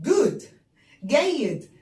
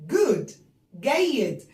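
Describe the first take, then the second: The two takes are said the same way.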